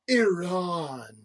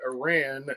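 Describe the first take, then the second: First: The word is exaggerated with a rolled r. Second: The word is said in a plain, ordinary way. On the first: The speaker calls it right. "You have to say it like a U N official" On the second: The speaker calls it wrong. "I didn't say it correctly"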